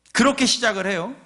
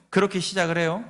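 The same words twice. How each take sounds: First: 그렇게 pushed up high and louder; emphatic. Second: Said in the usual way. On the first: Shown as a demonstration. Preacher stresses how the chapter opens, 그렇게 raised high. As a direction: lift and stress 그렇게 to drive it home.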